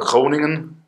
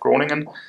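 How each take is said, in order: First: The name is said with a Dutch pronunciation. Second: The name is said with a non-Dutch pronunciation.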